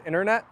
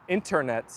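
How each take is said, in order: First: "internet" with the first t dropped; slangy "internet". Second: "Internet" with a crisp first t; proper "Internet". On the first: Streamer showing native slurring, "internet" as innernet. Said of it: "you slang a lot of the words". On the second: Streamer contrasting with slang, fully pronounced "Internet". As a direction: sound every t in "Internet". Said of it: "they are very proper". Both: Shown as a demonstration.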